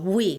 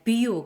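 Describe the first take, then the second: First: The word begins with a W sound. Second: The word begins with a V sound. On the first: "태국어에서는 V를 W 발음으로 발음을 해요" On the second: "V-I-E-W 우리는 뷰라고 읽잖아요"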